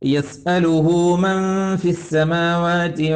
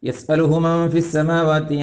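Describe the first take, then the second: First: The vowel of hu is held long. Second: The vowel of hu is kept short. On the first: The speaker calls it right. "യസ്അലുഹു എന്ന ഹു അല്പം നീളണം" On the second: The speaker calls it wrong. "ചിലരൊക്കെ ഓതുന്നത്"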